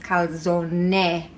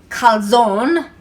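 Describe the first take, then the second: First: The final E is clearly pronounced. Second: The final E is left silent. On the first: The speaker calls it right. "the E is actually pronounced" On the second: The speaker calls it wrong. "as Americans say"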